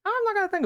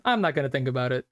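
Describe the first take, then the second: First: High squeaky repeat of I'm not gonna think about it. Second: Said in the usual way. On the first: Shown as a demonstration. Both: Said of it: "repeat in other voice".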